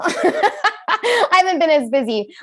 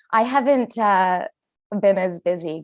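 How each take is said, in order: First: Laughing through it, higher; giggling self-mocking repeat. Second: Said in the usual way. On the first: Shown as a demonstration. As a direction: crack up while saying it again. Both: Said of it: "Can you tell?".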